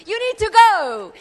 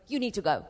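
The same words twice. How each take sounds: First: You need to go, with go thrown out high and loud; loud preaching charge. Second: You need to go, dropped low and soft; You need to go, said low and hushed; soft, intimate repeat. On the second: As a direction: murmur it as a gentle urging. Quiet repeat of the charge. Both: Acted.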